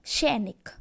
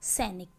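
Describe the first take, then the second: First: सैनिक said as "shainik", with a sh sound at the start; wrong pronunciation. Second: सैनिक said as "sainik", with a clean s sound at the start; correct pronunciation. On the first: Teacher shows pupils the wrong way, सैनिक as "shainik". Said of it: "बच्चे बोलते हैं सैनिक". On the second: Teacher gives pupils the correct form, सैनिक as "sainik". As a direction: model the right way: a crisp "sainik" for सैनिक. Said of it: "वह होता है सैनिक". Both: Shown as a demonstration.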